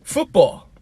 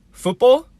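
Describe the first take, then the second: First: FOOTBALL high, then falling like a statement; incredulous echo. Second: FOOTBALL rising high and loud as a question; puzzled repeat. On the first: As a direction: echo "Football." with a firm drop at the end. Repeats the misheard name back. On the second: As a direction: repeat "Football?" in disbelief, pitch shooting up. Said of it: "she repeats back and says". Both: Retold or imitated.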